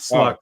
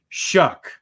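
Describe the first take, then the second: First: The name begins with an 'sl' sound. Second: The name begins with an 'sh' sound. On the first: The speaker calls it wrong. "Sorry, not Sluck" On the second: The speaker calls it right. "That's how you say it"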